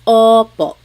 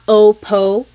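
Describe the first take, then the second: First: The o vowel is open and wide. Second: The o vowel is narrow and closed. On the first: The speaker calls it right. "the inside of your mouth is open and wide" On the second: The speaker calls it wrong. "It's not opo"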